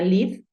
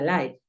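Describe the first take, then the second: First: The vowel is short, rhyming with 'give'. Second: The vowel is long, rhyming with 'five'. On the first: This is how it actually sounds because it is irregular. The speaker calls it right. "pero no, suena live porque es irregular" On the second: This is how it would sound if it followed the rule. The speaker calls it wrong. "Si se rigiese a la norma, sonaría live"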